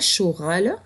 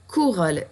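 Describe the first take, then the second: First: The word begins without a k sound. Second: The word begins with a k sound. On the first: The speaker calls it wrong. "tu vois bien que c'est un mot qui n'existe pas" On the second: The speaker calls it right. "Et là on entend le Q"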